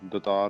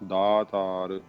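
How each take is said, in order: First: The first vowel is a short 'a' sound. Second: The first vowel is a long 'aa' sound. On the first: The speaker calls it wrong. "ਦਤਾਰ ਨਹੀਂ ਕਹਿਣਾ" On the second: The speaker calls it right. "ਦੱਦੇ ਨੂੰ ਕੰਨਾ ਲਾਉਣਾ"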